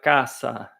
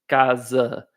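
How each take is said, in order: First: It is said with a Spanish pronunciation. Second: It is said with a Portuguese pronunciation. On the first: "você vai falar caça" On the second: "no espanhol você nunca vai falar casa"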